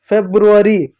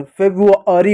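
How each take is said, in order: First: फेब्रुअरी with the first r sounded, "feb-ru-a-ri"; wrong pronunciation. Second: फेब्रुअरी without the first r, "feb-u-aa-ri"; correct pronunciation. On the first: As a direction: roll into "bru" in फेब्रुअरी. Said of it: "गलत होता है". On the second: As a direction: drop the r after b in फेब्रुअरी. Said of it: "फेब्रुअरी होता है". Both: Shown as a demonstration.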